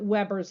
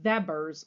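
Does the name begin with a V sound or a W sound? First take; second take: W sound; V sound. First: The name begins with a W sound. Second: The name begins with a V sound. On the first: This is an anglicized pronunciation to avoid confusion. "I'll pronounce it Weber's Law just so you don't get too confused" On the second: This is the original German pronunciation. "like a V, because it is German"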